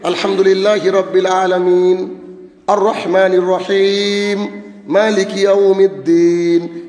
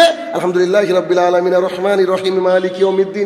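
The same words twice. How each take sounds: First: It is recited slowly and carefully. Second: It is recited quickly and hurriedly.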